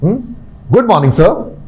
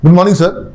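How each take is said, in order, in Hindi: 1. अभिवादन गर्मजोशी और चमक के साथ बोला गया है। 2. अभिवादन सपाट तरीके से बोला गया है, उसमें गर्मजोशी नहीं है। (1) "are you actually wishing good morning?" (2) "बच्चे गुड मॉर्निंग कैसे बोलते हैं? ... अब इसमें कुछ भी गुड है क्या?"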